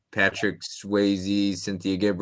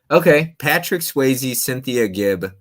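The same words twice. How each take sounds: First: Slowly, spelling out the clue names; slow repeat. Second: Louder, higher announcing the clue. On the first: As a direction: drag the names out for clarity. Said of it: "repeats clue slowly". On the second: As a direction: call out the clue like a quiz host. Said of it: "first take of the clue". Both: Shown as a demonstration.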